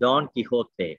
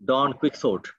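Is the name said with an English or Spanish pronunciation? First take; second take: Spanish; English. First: The name is said with a Spanish pronunciation. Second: The name is said with an English pronunciation. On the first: "the pronunciation of the novel in Spanish is Don Quixote" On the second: "we have all heard that this is pronounced Don Quixote"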